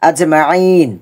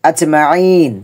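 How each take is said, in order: Both takes have the same delivery.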